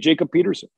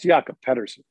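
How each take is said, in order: First: The name is said with an English pronunciation. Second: The name is said with a Swedish pronunciation. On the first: This is the form the player prefers. "but he wants to be Jacob Peterson" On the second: This is the original form of the name. "He's Swedish"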